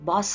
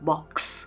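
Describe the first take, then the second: First: The word ends with only an s sound. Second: The word ends with a k then s sound. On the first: The speaker calls it wrong. "ಬಾಸ್ ಅನ್ನಲ್ಲ ಅಲ್ವಾ" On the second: The speaker calls it right. "ಕೆ ಎಸ್ ಒಟ್ಟಿಗೆ ನಾಪಿಸ್ಕೊಂಡು ಹೇಳಿ"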